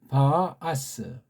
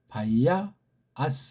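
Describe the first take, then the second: First: The two vowels join with no glide between. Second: A 'ya' glide is inserted between the vowels. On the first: The speaker calls it right. "그렇게 읽으면 돼요" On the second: The speaker calls it wrong. "기존 이제 가르치는 서양 방식은"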